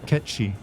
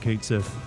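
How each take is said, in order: First: The name is said with a Gaelic pronunciation. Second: The name is said as spelled in English. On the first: "if you pronounce it the correct way, it's Ketchy" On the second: "given the way it's spelled, almost everyone has always called it Kate Sith"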